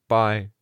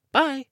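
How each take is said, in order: First: Put-on slightly raised boy character voice; a short goodbye, a little higher; Chicken Little. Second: Put-on very high-pitched child's goodbye; Looksee. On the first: The bird boy leaving the group, slightly high voice. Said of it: "Chicken Little said". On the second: Looksee answering Chicken Little's goodbye, very high-pitched. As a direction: pipe it far above your own voice. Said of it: "Looksee said". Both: A narrator's reading.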